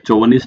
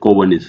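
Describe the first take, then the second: First: The word begins with a 'ch' sound. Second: The word begins with a 'k' sound. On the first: The speaker calls it wrong. "चोवनिस्ट नहीं होता" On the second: The speaker calls it right. "सी एच को कै बोलते हैं"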